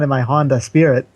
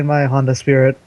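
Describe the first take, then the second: First: It is said in a put-on character accent. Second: It is said in the speaker's ordinary accent. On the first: The speaker calls it right. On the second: The speaker calls it wrong.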